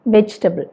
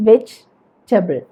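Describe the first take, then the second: First: Said in the usual way. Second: "വെജിറ്റബിൾ" slowly in two chunks, vege, table; split into chunks. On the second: Shown as a demonstration. Teacher showing bigger chunks for spelling, "വെജിറ്റബിൾ" as vege... table. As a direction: pause in the middle of "വെജിറ്റബിൾ", each half distinct. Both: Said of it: "അപ്പോൾ വേണമെങ്കിൽ ഇങ്ങനെ പറയാം".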